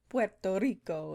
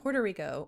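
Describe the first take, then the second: First: It is said with a Spanish-style accent. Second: It is said with a plain English accent.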